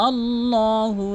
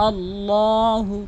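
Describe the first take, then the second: No difference in how they are said.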